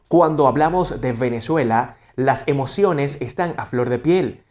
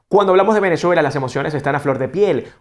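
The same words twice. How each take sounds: First: It is slow, marking each syllable clearly. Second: It is very fast, like a tongue twister. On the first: "marcamos bien cada sílaba" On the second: "Luego lo debemos hacer muy, muy rápido"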